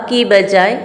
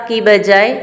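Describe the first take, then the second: No difference in how they are said.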